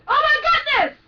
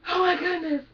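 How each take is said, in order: First: The voice is firmly supported and upright. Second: The voice is pushed and sounds collapsed. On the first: The speaker calls it right. "The body isn't collapsed" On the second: The speaker calls it wrong. "that's the wrong way"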